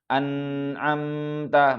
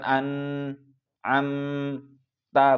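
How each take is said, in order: First: The nasal sound flows on without a break. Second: The nasal sound is cut off abruptly. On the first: The speaker calls it right. "tapi ... maka tidak boleh putus suaranya" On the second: The speaker calls it wrong.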